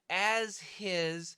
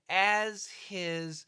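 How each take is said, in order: First: The h in 'his' is clearly pronounced. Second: The same.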